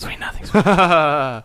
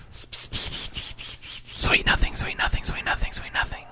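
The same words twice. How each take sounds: First: Slow, voiced teasing sweet nothings. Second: Breathy whisper of sweet nothings. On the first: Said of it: "I can hear you". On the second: Pretend. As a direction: whisper it softly into their ear. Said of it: "I just whispered sweet nothings into your ear".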